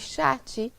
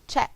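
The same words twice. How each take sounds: First: An extra vowel sound is added at the end. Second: The word ends cleanly on its final consonant. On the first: The speaker calls it wrong. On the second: The speaker calls it right.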